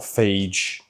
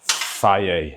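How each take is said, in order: First: The word ends with a 'zh' or 'j' sound. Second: The word ends in a plain vowel sound. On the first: The speaker calls it wrong. "not phage" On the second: The speaker calls it right. "So many people say it wrong"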